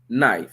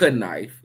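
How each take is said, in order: First: The word begins with a silent K. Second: The word begins with a sounded K. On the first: The speaker calls it right. "So that H is just as silent as that K for knife" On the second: The speaker calls it wrong. "it's not knife"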